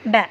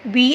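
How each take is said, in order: First: The letter is said with a short 'a' vowel. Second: The letter is said with a long 'ee' vowel. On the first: The speaker calls it right. "ऐसा नहीं पढ़ेंगे, बै बैट बै" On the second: The speaker calls it wrong. "Completely हम ऐसा नहीं पढ़ेंगे"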